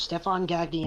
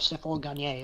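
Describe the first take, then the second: First: The name is pronounced the English way. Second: The name is pronounced the French way. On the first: The family's later, anglicized form of the name. "they just dropped the accent. I was just Stefan Gagny" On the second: The original French form of the name. "instead of Stéphane Gagné or whatever"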